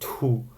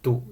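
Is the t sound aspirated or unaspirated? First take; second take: aspirated; unaspirated. First: The t has a strong puff of air. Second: The t has no puff of air. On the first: The speaker calls it wrong. "it's not tu, uh, like maybe Germans would pronounce it" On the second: The speaker calls it right. "consonants are not usually aspirated"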